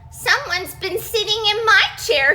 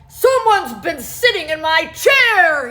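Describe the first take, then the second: First: A teeny tiny Baby Bear voice cries it. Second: A deep, gruff Daddy Bear voice growls it.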